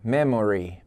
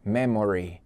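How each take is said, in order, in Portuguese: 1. A vogal do meio é pronunciada completamente, três sílabas. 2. A vogal do meio é pronunciada completamente, três sílabas.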